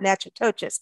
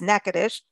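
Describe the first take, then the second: First: The name is read out letter by letter. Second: The name is said in a shortened form. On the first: The speaker calls it wrong. "so it's not Natchitoches" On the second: The speaker calls it right. "It's Natchitoches"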